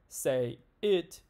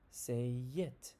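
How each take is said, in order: First: The two words are kept apart without linking. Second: A y sound links the two words together. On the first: The speaker calls it wrong. "We don't say say it" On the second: The speaker calls it right. "You can hear that Y sound being added"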